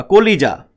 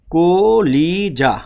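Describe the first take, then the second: First: Said in the usual way. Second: কলিজা very slowly as ko, li, ja; syllable by syllable. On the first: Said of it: "ধরেন আমি বললাম হচ্ছে". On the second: Shown as a demonstration. Teacher breaks the word for students, কলিজা drawn out. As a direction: stretch each syllable of কলিজা apart. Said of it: "যখন বলেন তাহলে কলিজা".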